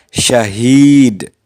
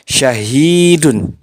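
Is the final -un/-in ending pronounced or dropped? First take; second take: dropped; pronounced. First: The word ends on a bare d sound. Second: The word ends with a pronounced -un ending. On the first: The reader stops at this word. "apabila diwakafkan, dibaca syahid" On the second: The reader continues without stopping. "asalnya syahidun"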